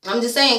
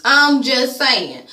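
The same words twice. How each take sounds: First: Said in the usual way. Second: Slow, stretched, leaning on I'm; slow drawn-out catchphrase. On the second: Real, not acted. Vlogger signing off a rant with a slow, pointed drawl. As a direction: drag it out and lean on "I'm".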